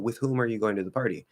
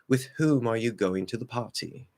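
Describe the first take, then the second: First: It is spoken in a plain American accent. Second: It is spoken in a put-on British accent. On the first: The speaker means it seriously. "if you were to seriously say like" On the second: The speaker is joking around. "we usually will also add a British accent to it"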